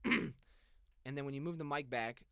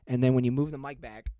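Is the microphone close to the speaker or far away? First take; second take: far; close. First: The voice is distant, quieter and thinner. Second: The voice is close, loud and bass-heavy. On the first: "very far less proximity effect, but a lot less volume" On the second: "Lots of proximity when you get close"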